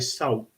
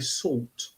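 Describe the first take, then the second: First: The word is said in an Essex accent. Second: The word is said in a standard accent. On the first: "I say salt because I come from Essex. Salt, S A W T" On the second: "you'll notice I don't say salt"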